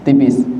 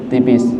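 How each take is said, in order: The two takes are said the same way.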